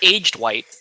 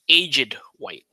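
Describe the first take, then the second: First: 'Aged' is said in a plain, ordinary way. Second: 'Aged' is said in a fancy, elaborate way. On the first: The speaker calls it wrong. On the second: The speaker calls it right.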